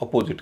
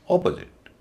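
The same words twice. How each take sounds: First: अपोजिट with a full, long "po"; common pronunciation. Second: अपोजिट with a high, stressed opening "O"; corrected pronunciation. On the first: Teacher repeating the popular form, common pronunciation. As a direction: lean on the middle of अपोजिट. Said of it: "कई लोग अपोजिट कहते हैं". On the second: Teacher repeating it for students, corrected pronunciation. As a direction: hit first syllable of अपोजिट, short "puh" after. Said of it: "तो इसको बोला जाएगा". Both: Shown as a demonstration.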